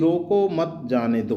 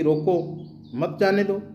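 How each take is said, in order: First: The sentence flows without any pause. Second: The sentence is broken by a pause. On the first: "एक लय के अंदर इसको बोल लें" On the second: "अगर हम इसको ऐसे बोलें कि"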